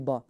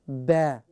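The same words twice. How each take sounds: First: It is said with a full, rounded mouth. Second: It is said with the lips slightly stretched. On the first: The speaker calls it wrong. "they try to say it in a full mouth to say Ba. It should not be Ba" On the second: The speaker calls it right. "You can stretch your mouth a little bit"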